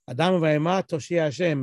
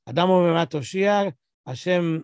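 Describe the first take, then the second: First: The phrase runs on without a pause. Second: There is a pause before the final word. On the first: Man and animal will save God. The speaker calls it wrong. "The normal way the song goes, or the way we say it" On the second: God saves both man and animal. The speaker calls it right. "You want to say it properly"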